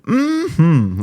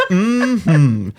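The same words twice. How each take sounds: First: Put-on high, loud old-timey "Mm-hmm"; 1930s movie character. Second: Put-on high, loud old-timey "Mm-hmm" with a laugh; a laughing old-film agreement; 1930s movie character. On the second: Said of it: "I said it like a nineteen thirties character".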